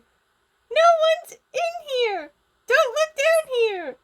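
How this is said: It is said in a high, panicked character voice. "I can't do a panicked Gizmo apparently"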